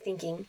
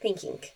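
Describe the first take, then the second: First: The word ends with a plain ng. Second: The word ends with a k sound. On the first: The speaker calls it right. "instead of thinking" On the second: The speaker calls it wrong. "my G comes out as a K. ... It sounds like thinking"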